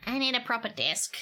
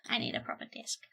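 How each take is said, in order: First: Said in the usual way. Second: Soft unvoiced whisper. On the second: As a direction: whisper the same words back. Repeats line, then whispers.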